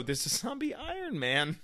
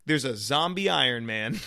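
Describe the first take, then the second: First: Much higher and softer voice; high, soft aside. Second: Said in the usual way. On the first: Acted. Fan dwelling on the zombie Iron Man, high soft aside. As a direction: lift it high and keep it small. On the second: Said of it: "and you're like".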